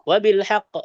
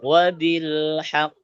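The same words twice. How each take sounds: First: It is said quickly with a shorter pause. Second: It is said slowly with a longer pause. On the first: "cepat beda lagi" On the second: "Umpamanya kita pelan bacanya"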